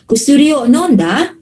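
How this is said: The pitch rises at the end. It asks a question. "yung intonation niya, naka-rise"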